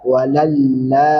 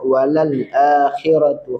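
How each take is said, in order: First: The l runs straight into a long la sound. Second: A clear glottal stop comes before akhiratu. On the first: This follows the Warsh reading. "kalau kira kira waras tadi" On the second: This follows the Hafs reading. "harusnya kan"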